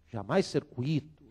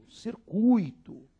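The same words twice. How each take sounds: First: Said in the usual way. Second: Circuito slow, higher, cir-cui-to in three syllables; corrected form. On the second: Shown as a demonstration. Teacher gives the right circuito after the wrong one.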